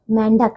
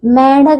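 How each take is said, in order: First: मेंढक ending in "k", pitched low; correct pronunciation. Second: मेंढक with the first syllable drawn out; mispronunciation. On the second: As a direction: stretch मेंढक as the faulty form. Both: Shown as a demonstration. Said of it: "मेंढक नहीं".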